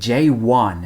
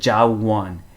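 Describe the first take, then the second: First: The first syllable is said as jay. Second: The first syllable is said as ja. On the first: "제이원 이렇게 에이 발음은 어렵습니다" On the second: "어떤 경우에는 재원을 무슨 어떻게 발음하냐면 뭐 자원"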